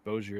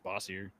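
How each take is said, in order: First: The name is said with an English-style pronunciation. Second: The name is said with a French-style pronunciation. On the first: This is how a voice assistant says it. The speaker calls it wrong. "when she says it, it's Bozier" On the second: This is how the name really sounds. The speaker calls it right. "It's French, baby"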